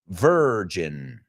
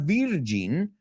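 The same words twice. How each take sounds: First: The word begins with a V sound. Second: The word begins with a B sound. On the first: The speaker calls it right. "It's got that V" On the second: The speaker calls it wrong. "it's not virgin"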